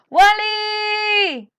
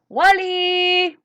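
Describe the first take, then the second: First: It is called out more loudly. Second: It is called at normal loudness.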